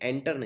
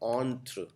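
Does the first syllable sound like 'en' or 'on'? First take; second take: en; on. First: The first syllable sounds like 'en'. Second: The first syllable sounds like 'on'. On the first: The speaker calls it wrong. "ये एंटर नहीं है" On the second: The speaker calls it right. "इसको बोलते हैं ऑन्थ्र"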